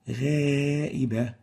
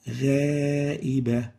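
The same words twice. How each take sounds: First: The alif vowel is light and thin. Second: The alif vowel is light and thin.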